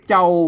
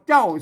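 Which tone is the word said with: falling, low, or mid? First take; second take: low; falling. First: The word is said with a low tone. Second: The word is said with a falling tone. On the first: "ใส่ไม่เอกเจ้าเสียงเอกนะครับ" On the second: "ใส่ไม่โทเจ้านะครับเจ้าเสียงโทปกตินะครับ"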